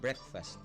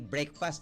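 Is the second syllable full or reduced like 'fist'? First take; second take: reduced; full. First: The second syllable is reduced, sounding like 'fist'. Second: The second syllable is said with a full vowel. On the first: The speaker calls it right. "parang fist" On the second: The speaker calls it wrong. "Hindi breakfast ha?"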